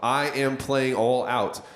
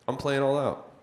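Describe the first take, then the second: First: I am is said as two full words. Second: I am is contracted into one syllable. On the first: The speaker calls it right. "It is I am playing all out" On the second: The speaker calls it wrong. "Why didn't I say I'm playing all out?"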